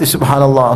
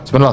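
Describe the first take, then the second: First: It is said slowly, savoured. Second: It is said quickly, rushed.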